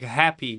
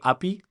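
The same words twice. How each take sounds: First: The H at the start is clearly pronounced. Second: The H at the start is left silent. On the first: The speaker calls it right. "instead of saying like happy" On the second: The speaker calls it wrong. "You're not pronouncing the H correctly"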